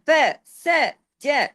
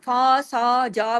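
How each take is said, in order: First: Each syllable has a short vowel. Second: Each syllable has a lengthened vowel. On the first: The speaker calls it right. "फा के साथ अलिफ नहीं है" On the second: The speaker calls it wrong. "सबके साथ अलिफ लगाते लगाते आगे नहीं चले जाना"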